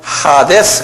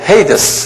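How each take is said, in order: First: The first vowel sounds like 'ah' in father. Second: The first vowel sounds like 'ay' in day. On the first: This is the original Greek way of saying it. "그대로 발음대로 하면 하데스예요" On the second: This is the English way of saying it. "영어로는 헤이데스 그러는데"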